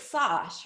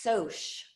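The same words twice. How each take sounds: First: "sosh" said with an open ah, like sahsh; expected mispronunciation. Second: "soch" said slowly as sohsh, long o; correct pronunciation. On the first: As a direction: rhyme "sosh" with gosh. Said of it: "Obviously, it's sosh". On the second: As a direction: stretch "soch" like the start of socialize. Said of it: "as in socialize". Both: Shown as a demonstration.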